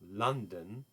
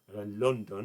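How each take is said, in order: First: The word has an English pronunciation. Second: The word has a German pronunciation. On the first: The speaker calls it right. "London که خب خیلی متفاوته از تلفظش توی آلمانی" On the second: The speaker calls it wrong. "تلفظش توی آلمانی لندن. لندن نه"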